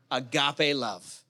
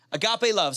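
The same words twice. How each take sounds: First: "Agape" as a-GAH-pay, slow and low; agape said slowly. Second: Said in the usual way. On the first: Shown as a demonstration. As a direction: draw out "Agape love" softly.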